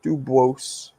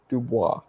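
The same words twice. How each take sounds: First: The final S is pronounced aloud. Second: The final S is left silent. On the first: The speaker calls it wrong. "Not Dubois" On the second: The speaker calls it right. "the S is silent"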